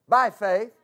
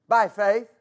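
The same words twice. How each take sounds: The two takes are said the same way.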